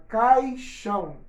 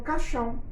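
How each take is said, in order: First: Caixão slow, cai-xão with the i sounded; slow model caixão with the i; careful diphthong. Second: Caixão said as caxão, no i; casual everyday caixão as caxão; reduced diphthong. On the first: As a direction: say caixão slowly with a clear ai. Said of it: "quando eu falo dessa forma". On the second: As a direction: drop the i: caxão. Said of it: "Mas na hora de falar, eu falo caixão". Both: Shown as a demonstration.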